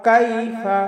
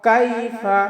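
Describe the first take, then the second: Both takes have the same delivery.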